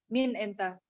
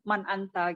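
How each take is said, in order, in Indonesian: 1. Diucapkan dengan cara Mesir, yaitu min enta. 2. Diucapkan dengan cara standar, yaitu man anta.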